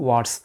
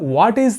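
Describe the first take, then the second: First: The two words are merged into one syllable. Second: The two words are said separately and fully.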